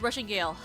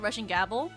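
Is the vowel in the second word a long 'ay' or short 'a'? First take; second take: long ay; short a. First: The second word has a long 'ay' vowel. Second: The second word has a short 'a' vowel. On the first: The speaker calls it right. "I just realized it says Russian Gale" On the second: The speaker calls it wrong. "I've been calling it Russian Gabble"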